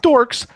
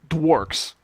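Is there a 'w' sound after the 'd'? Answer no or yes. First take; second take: no; yes. First: It is said with no 'w' after 'd'. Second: It is said with a 'w' after 'd'. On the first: The speaker calls it wrong. "not dorks" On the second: The speaker calls it right. "You got to say it right"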